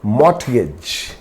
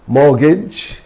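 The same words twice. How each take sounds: First: The T sound is clearly pronounced. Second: The T sound is left out. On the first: The speaker calls it wrong. "it's not mortgage" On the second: The speaker calls it right. "random words with silent T"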